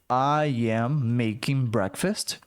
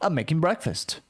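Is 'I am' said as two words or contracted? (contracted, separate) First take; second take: separate; contracted. First: I and am are said as separate words. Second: I'm is contracted and runs straight into making. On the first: "Então, I am making breakfast" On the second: "Ficou emendado"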